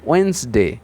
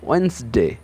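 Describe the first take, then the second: First: The middle d is silent, two syllables only. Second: The middle d is silent, two syllables only.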